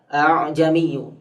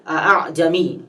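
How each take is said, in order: First: The second hamzah is pronounced lightly and softened. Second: The second hamzah is pronounced with full strength. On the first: This is the required reading in this verse. "yang keduanya di di apa namanya diringankan, ya, suaranya" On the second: This is the original form of the word. "hamzah itu kan aslinya a'jami"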